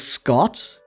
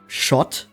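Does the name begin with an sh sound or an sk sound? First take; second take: sk; sh. First: The name begins with an sk sound. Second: The name begins with an sh sound. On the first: "I chose to pronounce it as Scott because, like, you have the S C H in, in words like school" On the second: "if I read it in German, I would pronounce it as Schott"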